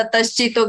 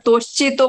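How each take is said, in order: First: तश्चितो with a short a in the first syllable; correct tashchito. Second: तोश्चितो with an o in the first syllable; wrong take तोश्चितो, first vowel o; mispronounced tashchito. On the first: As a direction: say तश्चितो properly. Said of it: "तश्चितो की जगह". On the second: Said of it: "तोश्चितो बोला था". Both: Shown as a demonstration.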